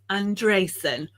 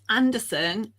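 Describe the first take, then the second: First: The stress is on the second syllable. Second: The stress is on the first syllable. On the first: The speaker calls it right. "with an acute accent over the E for extra emphasis" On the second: The speaker calls it wrong. "it's not Anderson"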